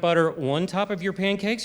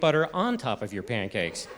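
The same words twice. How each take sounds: First: The word 'on' has a Maryland vowel. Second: The word 'on' has a standard vowel.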